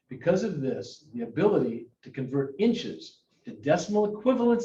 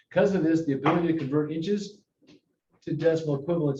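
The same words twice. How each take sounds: First: It is read at a noticeably slower pace. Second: It is read at a normal, quicker pace.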